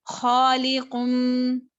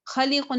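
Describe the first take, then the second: First: Slow खालिकुन with heavy "khaw"; full stretched kha. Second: खलिकुन with a short, light first a; wrongly short kha. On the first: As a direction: round and hold the खा of खालिकुन. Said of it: "खा है वो पुर हुरूफ". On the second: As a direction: rush the thin "kha" of खलिकुन. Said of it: "खलिकुन नहीं पढ़ना". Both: Shown as a demonstration.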